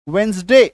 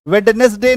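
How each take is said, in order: First: वेंसडे with first D silent; correct pronunciation. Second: वेडनेसडे with first ड spoken out; wrong pronunciation. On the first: Teacher cuts the D, correct pronunciation. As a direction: say वेंसडे in two syllables, वेंस-डे. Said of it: "तो D को काटो". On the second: Teacher shows what not to say, wrong pronunciation. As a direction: pronounce every syllable, वेड-नेस-डे. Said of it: "नहीं बोलेंगे". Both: Shown as a demonstration.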